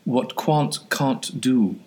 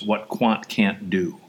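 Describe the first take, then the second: First: It is said in a put-on British accent. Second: It is said in the speaker's plain accent.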